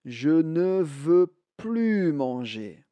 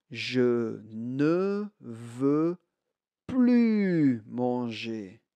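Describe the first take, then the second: First: Said in the usual way. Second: Very slow, drawn out, stress on ne and plus; slow model sentence. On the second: Shown as a demonstration. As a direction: stretch it out word by word for learners.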